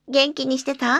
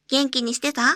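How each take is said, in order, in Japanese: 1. 声は真後ろからです。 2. 声は右側からです。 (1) "背面中央、マイクから約50 センチ離れた距離から" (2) "右耳、マイクから約50 センチ離れた距離から"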